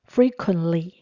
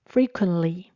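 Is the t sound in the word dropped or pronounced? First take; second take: dropped; dropped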